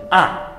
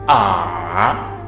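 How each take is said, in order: First: The pitch drops sharply and stops. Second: The pitch falls, then rises again. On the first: "uma paragem brusca" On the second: "O terceiro decresce e depois tende a crescer"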